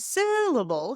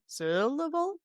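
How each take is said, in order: First: The stressed syllable is higher in pitch. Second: The stressed syllable is louder, longer, lower in pitch. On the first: "instead of saying syllable" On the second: "the pitch would drop"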